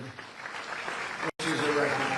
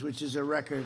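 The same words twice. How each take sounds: First: Which is a record said slowly, each word weighted; slow emphatic repeat. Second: Said in the usual way. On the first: Shown as a demonstration. To the crowd, hammering home the record, slow emphatic repeat. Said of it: "repeats it for emphasis".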